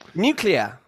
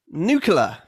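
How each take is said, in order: First: The word has a British pronunciation. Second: The word has an American pronunciation. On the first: The speaker calls it right. "the first version is correct" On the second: The speaker calls it wrong. "the second version is American"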